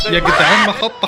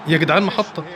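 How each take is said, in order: First: Laughing it out, a bit louder. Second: Said in the usual way. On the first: Real, not acted. Gamer laughing to viewers at the play. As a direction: crack up mid-shout.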